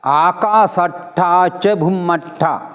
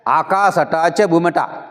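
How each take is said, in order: First: The t sound is held long and doubled. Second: The t sound is short and single. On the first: The speaker calls it right. "उसका भी उच्चारण होना चाहिए, क्योंकि बाली भाषा में अक्षर द्वित्व हो जाता है।" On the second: The speaker calls it wrong. "ये गलत है।"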